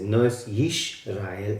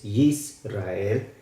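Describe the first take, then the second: First: Yisrael said with a sh sound, slow; wrong pronunciation. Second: Yisrael said slowly with a clear s; correct pronunciation. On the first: (Yisrael mal pronunciado, con sh) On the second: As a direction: say Yisrael with s, slow and careful. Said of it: "no es Yisrael, es Yisrael". (Yisrael bien pronunciado, con s, despacio) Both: Shown as a demonstration.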